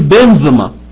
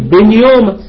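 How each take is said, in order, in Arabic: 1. الصوت الأوسط هو الحرف الساكن 'v'. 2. الصوت الأوسط هو حرف العلة 'u'. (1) "في النطق الحديث بقى إن الإبسلون يبسلون يتنطق زي الفي" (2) "فممكن أنا أقول يا فيصل أقول بين يوما"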